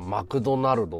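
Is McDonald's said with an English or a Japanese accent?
Japanese. It is said with a Japanese katakana accent. It is how ordinary Japanese people say it. "俺らは日本人だからマクドナルドって言うんだよ。"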